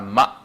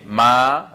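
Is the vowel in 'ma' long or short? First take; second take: short; long. First: The vowel is short. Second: The vowel is drawn out long.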